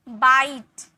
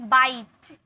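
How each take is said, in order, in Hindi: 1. स्वर लंबा खींचा और दबाया जाता है। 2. स्वर लंबा खींचा और दबाया जाता है।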